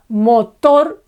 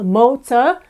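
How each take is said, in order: First: It is said with a Spanish pronunciation. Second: It is said with an English pronunciation.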